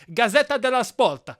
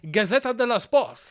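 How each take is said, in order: First: It is said with an Italian-sounding accent. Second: It is said with a Spanish-sounding accent.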